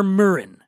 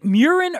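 First: Murin said "MUR-in", without the y-glide. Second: Murin said "MYUR-in", with a y-glide; MURIN to rhyme with urine. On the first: Host offers other surname reading, Murin as MUR-in. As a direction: say Murin with an r-coloured first vowel, like "myrrh". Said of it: "is it Murin or Murin". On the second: Host checks guest's surname, Murin as MYUR-in. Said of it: "it rhymes with urine". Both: Shown as a demonstration.

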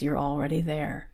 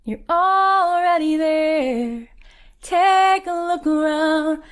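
First: Said in the usual way. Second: High, loud, drawn-out sung line; sung, belt it slowly, holding the long notes; singing out. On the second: Retold or imitated. Message repeated as loud song.

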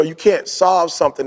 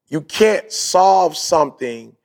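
First: Said in the usual way. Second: Slow, emphatic "You can't solve something"; deliberate repeat. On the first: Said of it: "I'm gonna say that again". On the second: Shown as a demonstration. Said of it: "make sure y'all catch what I'm saying".

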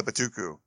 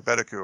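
First: Betuku stressed on the middle syllable; buh-TOO-koo for Betuku; alternative pronunciation. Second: Betuku stressed on the first syllable; BET-uh-koo for Betuku; alternative pronunciation. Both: Shown as a demonstration. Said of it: "or however you say it".

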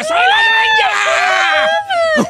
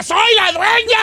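First: Very high, loud and slowly stretched shout; drawn-out telenovela shriek. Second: Hammed-up soap-opera cry of triumph; mock triumphant yell. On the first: Pretend. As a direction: howl it like a soap heroine soaked in dirty water. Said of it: "así grita". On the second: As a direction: yell it out from the stormy mud like a telenovela heroine. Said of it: "se enloda y grita".

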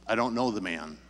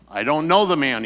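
First: Said in the usual way. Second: Much louder, emphatic denial; insistent denial. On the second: Retold or imitated. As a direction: push back hard against the accuser. Peter's second denial, pressed harder.

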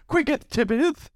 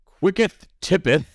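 First: Put-on old English. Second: Mock archaic, slow and high; drawn-out faux Shakespearean; old English. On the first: Shown as a demonstration. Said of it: "Now you have to say it in an old English accent". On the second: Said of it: "as [name] says".

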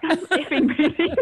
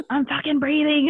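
First: Laughing. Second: Higher, exasperated snap at the midwife; irritated snap. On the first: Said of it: "Can I swear, by the way?". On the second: Woman in labour snapping at midwife, exasperated. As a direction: bite back that you are breathing. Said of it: "I'll say the, the swearing anyway". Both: Retold or imitated.

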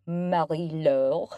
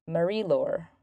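First: Put-on drawn-out French accent, rising at the end; mock French accent. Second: Said in the usual way. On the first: Host thanks a sponsor by name, playful French accent. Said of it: "That's my French accent". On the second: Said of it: "That's my French accent. I apologize".

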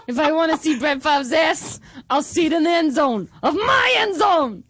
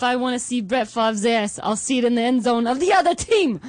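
First: Put-on higher, louder Boston accent shouted with laughter. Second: Put-on a touch of Boston accent, boastful; fan's Boston accent, a bit louder. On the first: Patriots fan mocking Brett Favre, loud laughing Boston accent shout. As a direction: yell it in a hammed-up Boston accent. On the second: Patriots fan mocking Brett Favre, mild Boston accent. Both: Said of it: "Just do that accent?".

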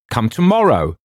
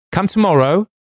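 First: Loud, raised bark falling at the end. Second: High, loud call with rising end. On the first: Wilde silences the visitor at the door, loud falling bark. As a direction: cut them off with a firm, high bark. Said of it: "a sort of bark from Mister Wilde". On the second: Wilde sends the visitor away through the door, high rising call. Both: A narrator's reading.

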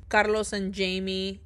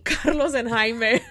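First: Jamie said the English way, JAY-mee; misread name. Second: Jaime said the Spanish way, HI-meh, with a laugh; corrected name. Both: Real, not acted. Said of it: "I read it, and my mouth said it".

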